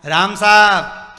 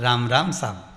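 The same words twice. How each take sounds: First: Loud, slow call across the path; hearty greeting. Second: Said in the usual way. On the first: Shown as a demonstration. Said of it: "जरा बोल के देखना". (धीमे, ज़ोर से पुकारा गया "राम साहब") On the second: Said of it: "तो सामने वाला".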